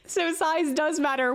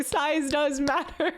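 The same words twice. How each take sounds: First: Said in the usual way. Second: "matter" drawn out slowly with a rising tune; "size does matter" said slowly, leaning on "matter"; stress on matter. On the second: Shown as a demonstration.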